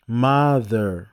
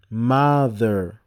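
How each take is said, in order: Both takes have the same delivery.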